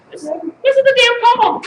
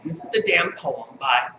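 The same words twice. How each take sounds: First: Higher declaimed poem title; raised, projected recital voice. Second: Said in the usual way. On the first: Acted. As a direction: announce the title like a performance poet.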